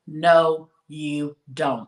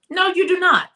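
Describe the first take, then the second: First: Slow, deliberate no, each word set apart; said real slow. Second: Much higher and louder, punching do not; emphatic no. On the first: Telling listeners they need not tell everyone, slowly. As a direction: lay it down slowly so it sinks in. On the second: Repeating her point to oversharing women, with sharp emphasis. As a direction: hit do not hard, rising sharply. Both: Shown as a demonstration. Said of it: "gonna say this real slow".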